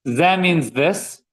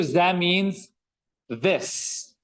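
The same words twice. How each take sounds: First: Ze means this, each word slow and drawn out; slow teaching repeat. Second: Said in the usual way. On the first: Shown as a demonstration. Teacher repeats ze for students, very slow and deliberate. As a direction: spell it out slowly for the class.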